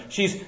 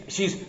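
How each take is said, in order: Both takes have the same delivery.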